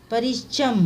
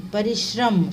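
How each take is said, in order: First: परिश्रम said as parishcham; wrong consonant. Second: Said in the usual way. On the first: Shown as a demonstration. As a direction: drop the r after sh in परिश्रम. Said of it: "नहीं". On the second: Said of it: "नहीं, परिश्रम".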